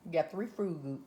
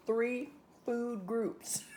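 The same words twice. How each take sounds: First: Said in the usual way. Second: Three food groups drawn out very slowly, higher and spaced; stressed correction. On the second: Shown as a demonstration. Host correcting herself to viewers, three food groups stretched slow and high.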